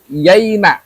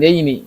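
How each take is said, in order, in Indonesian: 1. Akhiran itu diakhiri dengan vokal a. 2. Akhiran itu diakhiri dengan vokal i. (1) "Pakai ini yaina" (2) "bukan yaini"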